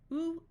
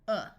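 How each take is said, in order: First: The vowel is a long oo sound. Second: The vowel is a short uh sound. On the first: "We do the long sound first" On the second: "the short sound"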